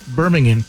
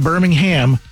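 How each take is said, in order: First: It is said the British way. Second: It is said the American way.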